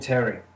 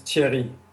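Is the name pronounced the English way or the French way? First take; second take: English; French. First: The name is said with an English pronunciation. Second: The name is said with a French pronunciation. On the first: "most people usually call me Terry. Like English-speaking people call me Terry" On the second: "the French way is Thierry"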